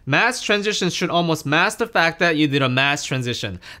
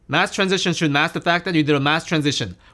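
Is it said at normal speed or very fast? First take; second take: normal; very fast. First: It is said at normal speaking speed. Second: It is said very fast, like a tongue twister.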